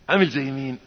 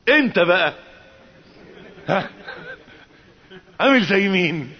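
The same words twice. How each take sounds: First: Said in the usual way. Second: Challenging question. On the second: Acted. Rhetorical challenge to the listener.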